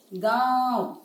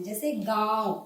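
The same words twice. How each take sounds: First: गांव with a long nasal आँ through mouth and nose; गांव said loud and nasal for students; nasalized vowel demo. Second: Said in the usual way. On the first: Shown as a demonstration. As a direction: stretch गांव, letting it ring in the nose. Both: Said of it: "बोल के देखने से आपको पता चलेगा".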